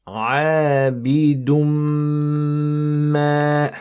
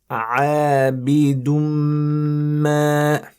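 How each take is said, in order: No difference in how they are said.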